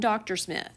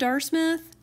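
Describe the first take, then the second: First: The title is said as the full two-syllable word. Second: The title is squeezed into one clipped syllable. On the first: The abbreviation is expanded into the full word. The speaker calls it right. "you call them Doctor Smith" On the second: The written abbreviation is read out literally. The speaker calls it wrong. "Do you call them Dar Smith? No"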